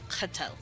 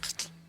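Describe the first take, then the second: First: A full vowel is heard between t and l. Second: No vowel is heard between t and l. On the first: This is the commonly used form of the word. "their basic word for themselves" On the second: This is how the people themselves say it. "they say it a little differently"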